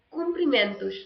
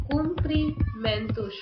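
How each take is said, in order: First: Said in the usual way. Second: "Cumprimentos" drawn out slowly, higher pitched; slow dictation. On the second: Shown as a demonstration. Spelling out word while writing it.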